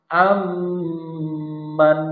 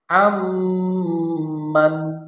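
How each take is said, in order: The two takes are said the same way.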